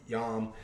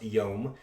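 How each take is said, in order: First: The vowel is an open 'ah' sound. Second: The vowel is a long 'oh' sound. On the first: The speaker calls it wrong. "pronouncing it with an A" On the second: The speaker calls it right. "this is actually pronounced yom"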